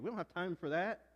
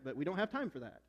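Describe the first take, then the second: First: It is said in a Southern accent. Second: It is said in a plain accent.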